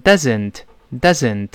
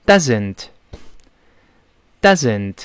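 First: Doesn't with a small, relaxed vowel and a z; doesn't with small mouth. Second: Doesn't said with a voiced z. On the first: Teacher showing the vowel after correcting it. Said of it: "不能口型太大". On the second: Teacher correcting students' wrong s sound. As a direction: buzz the z in doesn't. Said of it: "大声读一遍". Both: Shown as a demonstration.

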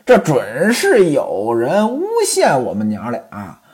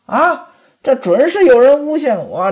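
First: 这准是有人诬陷我们娘俩 said lower with a falling end; coquettish. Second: 这准是有人诬陷我 said high with a rising end; aggrieved protest. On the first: Chunmei tells Ximen Qing they were framed, coy and falling. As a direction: let it fall, coy and low. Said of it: "娇滴滴地说". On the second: Pan Jinlian claims she was framed, high and rising. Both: Acted.

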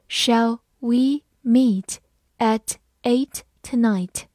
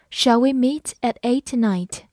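First: Slow, in two chunks; slow reading. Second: Said in the usual way. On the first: Shown as a demonstration. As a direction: read it slowly so students can repeat. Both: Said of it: "好，慢慢来读。".

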